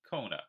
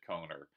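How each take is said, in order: First: The name ends in a plain vowel. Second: The name ends with an R-like sound. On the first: The speaker calls it right. "which is how I'm going to try to pronounce it now" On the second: The speaker calls it wrong. "when I add an R-ish sound in my accent, it sounds ridiculous"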